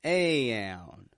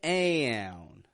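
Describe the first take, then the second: No difference in how they are said.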